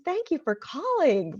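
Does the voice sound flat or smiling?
smiling. It is said warmly, with a smile.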